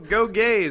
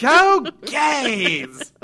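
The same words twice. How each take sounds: First: It is said at normal, quieter volume. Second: It is said louder, almost shouted.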